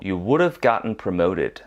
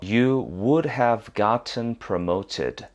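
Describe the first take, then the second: First: The phrase is said at a faster pace. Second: The phrase is said at a normal pace.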